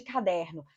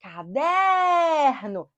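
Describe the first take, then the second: First: Said in the usual way. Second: "Caderno" called slowly with DER held very long; calling out. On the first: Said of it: "Qual é a sílaba tônica de caderno". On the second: Shown as a demonstration. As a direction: stretch the DER of "Caderno" like a call. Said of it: "A sílaba que se alonga".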